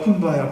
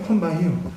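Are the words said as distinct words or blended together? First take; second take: blended; distinct. First: The words run together as kumbaya. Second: Three separate English words are clearly said. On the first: This is how the enslaved people pronounced it. "흑인식으로 발음하다 보니까" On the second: This is the original phrase meaning come to this place. "원래는 come by here예요"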